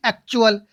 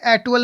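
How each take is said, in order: First: "एक्चुअल" with T sounded as CH; correct CH pronunciation. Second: "एक्चुअल" misread with hard retroflex T, no CH; wrong pronunciation. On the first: Teacher answering what we should say, ek-chu-al with clear CH. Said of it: "क्या बोलेंगे?". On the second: Teacher repeating what not to say, hard-T mispronunciation. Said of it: "नहीं बोलेंगे". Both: Shown as a demonstration.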